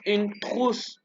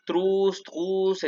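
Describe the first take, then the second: First: "trousse" with a throaty R, slowly; gargled French R. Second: "trousse" with a simplified R, not gargled; easier fallback R. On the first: Teacher models it for students, throaty R in "trousse". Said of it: "Como si hiciera una gárgara". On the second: Teacher offers beginners an easier option, "trousse" with simple R. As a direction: say "trousse" without the throaty French gargle. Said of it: "Pueden decirlo como tru". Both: Shown as a demonstration.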